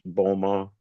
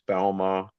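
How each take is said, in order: First: The name has its Southwestern Ontario pronunciation. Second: The name has its Quebec pronunciation. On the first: This is how the name is said in Southwestern Ontario. "Southwestern Ontario, it's Boma" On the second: This is how the name is said in Quebec. "Quebec, it's Balma"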